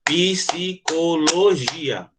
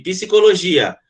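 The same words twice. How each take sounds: First: "Psicologia" very slow, one beat per syllable; "Psicologia" drawn out beat by beat; clapped syllables. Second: Said in the usual way. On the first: Shown as a demonstration. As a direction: clap out "Psicologia" slowly.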